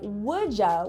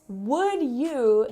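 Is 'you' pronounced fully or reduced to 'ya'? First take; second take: reduced; full. First: The second word is reduced to a quick 'ya'. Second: Both words are pronounced fully and separately.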